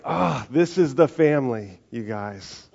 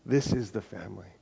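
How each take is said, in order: First: Paul excitedly telling the church it is one family. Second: Softer, settled restatement; a calm, sure repeat of Paul's words; quiet emphasis. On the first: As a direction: announce it with joy like Paul. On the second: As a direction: say it gently, letting it land. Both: Retold or imitated. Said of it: "you see Paul going like".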